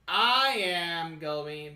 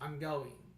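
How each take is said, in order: First: Both words are said separately and in full. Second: The two words are merged into one contraction. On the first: The speaker calls it wrong. "without contractions, your speech can sound a bit stiff or robotic" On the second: The speaker calls it right.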